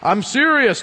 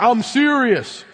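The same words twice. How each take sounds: First: Mock stern. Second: Firm parent. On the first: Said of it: "Does he say". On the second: Retold or imitated. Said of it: "when I'm serious".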